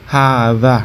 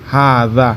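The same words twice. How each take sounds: First: The word ends with an 'a' vowel. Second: The same.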